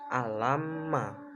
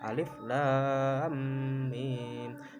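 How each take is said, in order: First: The letters are joined into one short word. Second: Each letter name is spelled out separately. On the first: The speaker calls it wrong. "bukan alama, bukan seperti ayat-ayat yang lain" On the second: The speaker calls it right. "membacanya itu dengan ejaan"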